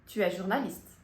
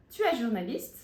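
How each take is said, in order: First: "Tu es journaliste" stated, the end settling downward; statement intonation. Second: "Tu es journaliste" with a clear rise at the end; question intonation. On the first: Teacher showing students the French affirmation, statement intonation. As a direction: state "Tu es journaliste" without a questioning lift. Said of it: "Agora, afirmação". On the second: Teacher showing students the French question, question intonation. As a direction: ask "Tu es journaliste", lifting the last word. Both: Shown as a demonstration.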